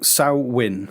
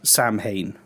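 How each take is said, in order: First: The word is pronounced unlike its spelling suggests. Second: The word is pronounced as its spelling suggests. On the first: The speaker calls it right. "How, how do you pronounce it?" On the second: The speaker calls it wrong. "it looks like it's Samhain. Is how it, look, it looks like it's spelt"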